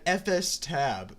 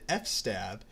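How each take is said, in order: First: It is said as three parts, eff-ess-tab. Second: It is said as two parts, eff-stab. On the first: "F S tab makes much more sense" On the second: "I always pronounced it F stab"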